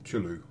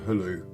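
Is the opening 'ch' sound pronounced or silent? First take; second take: pronounced; silent. First: The opening 'ch' sound is pronounced. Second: The opening 'ch' sound is silent. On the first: The speaker calls it wrong. "which I used to call" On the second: The speaker calls it right. "the C H ... would be silent anyway, because it's the same for Hulu"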